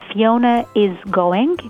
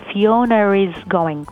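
First: No r sound joins Fiona and is. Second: An r sound joins Fiona and is. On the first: "الاسم فيونا is going" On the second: "بيقولوا فيونا is going، فبتلاحظوا أن زودوا الآر بين فيونا وإز"

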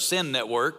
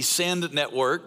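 First: It is said fast and the D disappears. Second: The final D of 'send' is clearly pronounced. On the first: It sounds like a network of sin. The speaker calls it wrong. "if I say it too fast" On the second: It names the church-planting network. The speaker calls it right. "I enunciate the D"

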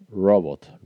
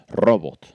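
First: The r is a soft English-style r. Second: The r is a strong Spanish-style r. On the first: The speaker calls it right. "No, robot. ... Like rose, robot" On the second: The speaker calls it wrong. "nuestra R es muy fuerte y la tiene muy marcada, pues claro, él te dice robot"

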